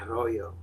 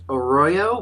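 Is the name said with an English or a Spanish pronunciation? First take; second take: Spanish; English. First: The name is said with Spanish-style sounds. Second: The name is said with English-style sounds. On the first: This is the cool way to say it. "if you want to be cool, it's Arroyo" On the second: This is how people usually say it. "usually it's pronounced Arroyo"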